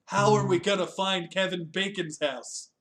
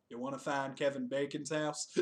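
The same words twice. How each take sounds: First: Lightly acted, louder questioning character; acted movie question. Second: Lightly acted, softer second character; acted echoed question. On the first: Retelling the Kevin Bacon's house scene, raised questioning voice. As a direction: put the question up and out, playfully. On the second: Stranger answering the searchers in a retold scene, subdued echoed question. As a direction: echo it back more quietly, as someone else.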